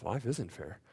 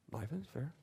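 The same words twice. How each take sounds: First: Isn't leaned on, falling; soft, firm stress on isn't. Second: Said in the usual way. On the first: Shown as a demonstration. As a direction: press the word isn't down firmly. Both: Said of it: "favorite lines to my kids".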